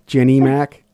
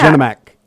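First: The first name ends in an 'ee' sound. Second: The first name ends in an 'uh' sound. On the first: This is how most people say the name. "And everyone else says Jenny Mack" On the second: This is how the name looks in print. "I said Jenna Mack"

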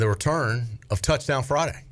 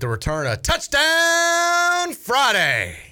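First: It is said flatly, with little energy. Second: It is said with lively, enthusiastic energy. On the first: The speaker calls it wrong. "You didn't say it with a lot of enthusiasm" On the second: The speaker calls it right. "That's better"

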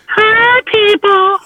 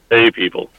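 First: It is said in a high, screechy voice. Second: It is said in a deep voice.

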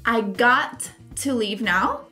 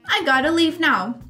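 First: Got and to are said as two full words. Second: Got and to are reduced together into gotta.

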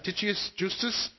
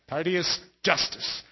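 First: The name is said without an American accent. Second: The name is said with an American accent.

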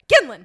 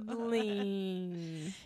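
First: It is said at a natural, casual speed. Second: It is said slowly and drawn out.

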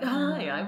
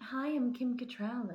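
First: It is said loudly and boldly. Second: It is said softly and quietly.

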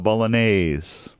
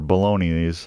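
First: It is pronounced the standard Italian-like way. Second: It is pronounced starting like the word bologna. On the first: The speaker calls it right. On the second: The speaker calls it wrong.

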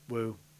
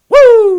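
First: It is a quiet, low-energy woo. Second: It is a loud, high-energy woo.

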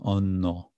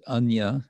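First: The word ends in an 'o' sound. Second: The word ends in a 'ya' sound. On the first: "Bengali pronunciation" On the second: "is from Sanskrit"

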